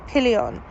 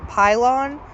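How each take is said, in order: First: The name is said with French pronunciation. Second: The name is said with English pronunciation. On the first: "that is how you pronounce it. It is a French word" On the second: "if I were to say it in just English phonetics"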